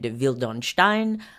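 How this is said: The surname is said with a French pronunciation. "in French I've heard it"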